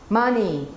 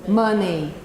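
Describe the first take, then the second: The two takes are said the same way.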